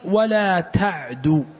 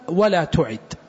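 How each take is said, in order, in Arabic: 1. الفعل مضبوط على: ta'du. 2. الفعل مضبوط على: tu'id. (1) "يعني ولا تسرع ولا تهرول" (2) "الضبط الأول"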